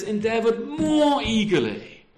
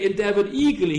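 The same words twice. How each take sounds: First: "more" stretched out slowly and hit hard; stress on MORE. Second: Said in the usual way. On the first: Shown as a demonstration. Preacher reading Paul's words to the church, stress on "more". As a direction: lean into "more" to show Paul's longing. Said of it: "he says". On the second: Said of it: "But he doesn't just say".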